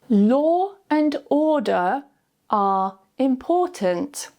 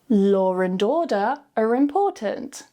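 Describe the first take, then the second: First: It is said very slowly, word by word. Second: It is said naturally, sounds joined smoothly. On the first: "Say each sentence very slowly first" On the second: "then naturally joining the sounds together smoothly with the intrusive R"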